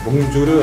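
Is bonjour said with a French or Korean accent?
Korean. It has a Korean accent with an extra final vowel. The speaker calls it wrong. "보통 한국 사람들이 Bonjour 할 때 이렇게 Bonjour를"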